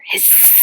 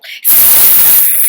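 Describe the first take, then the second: First: The hiss is louder than before. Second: The hiss is the loudest of all.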